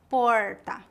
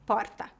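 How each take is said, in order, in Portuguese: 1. O R é retroflexo, como o R do inglês. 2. O R é um som vibrante, com vibração da língua. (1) "No interior, o R é retroflexo, como o R do inglês" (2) "o R é vibrante"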